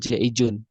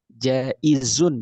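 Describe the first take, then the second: First: The middle consonant is a j sound. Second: The middle consonant is a z sound. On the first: The speaker calls it wrong. "bukan jaijun" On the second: The speaker calls it right. "Jaizun bukan jaijun"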